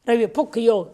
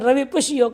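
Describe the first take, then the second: First: The middle consonant is a kh sound. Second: The middle consonant is a sh sound.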